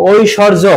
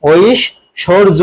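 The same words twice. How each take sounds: First: Said in the usual way. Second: ঐশ্বর্য very slowly in parts, oish-shor-jo; pronunciation demo. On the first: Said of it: "এটা হচ্ছে বানান". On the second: Shown as a demonstration. Teacher answers how it is pronounced, ঐশ্বর্য slowly split as oish-shor-jo. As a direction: break ঐশ্বর্য into oish, pause, shor-jo, with silent b. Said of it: "এর উচ্চারণ কি হবে".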